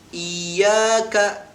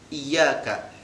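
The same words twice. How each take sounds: First: The first vowel is drawn out long. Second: The first vowel is short, with the y doubled. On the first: The speaker calls it wrong. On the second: The speaker calls it right.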